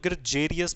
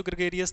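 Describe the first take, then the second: First: ग्रेजेरियस with a j sound in the middle; j-sound pronunciation. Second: ग्रेगेरियस with a hard g, as in "go"; hard g pronunciation. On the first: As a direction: say ग्रेजेरियस with "je" in place of "ge". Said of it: "ज का sound भी निकलता है". (ग्रेजेरियस में "ज" की आवाज़) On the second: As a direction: say ग्रेगेरियस with "ge", not "je", in the middle. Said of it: "hard sound भी निकालते हैं". (ग्रेगेरियस में कठोर "ग" की आवाज़) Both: Shown as a demonstration.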